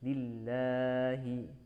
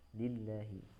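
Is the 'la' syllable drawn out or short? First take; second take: drawn out; short. First: The la vowel is drawn out too long. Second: The la vowel is held for a short count. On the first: The speaker calls it wrong. "jangan lillahi" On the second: The speaker calls it right. "dua harokat saja la-nya"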